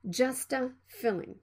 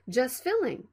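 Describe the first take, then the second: First: An extra vowel follows the t sound. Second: The t is stopped with no added vowel. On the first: The speaker calls it wrong. "Don't say" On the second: The speaker calls it right. "you need to stop the sound and move to the F sound"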